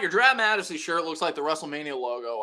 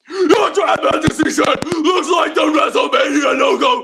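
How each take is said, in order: First: It is said in a natural speaking voice. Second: It is said in a gruff, shouty wrestler voice.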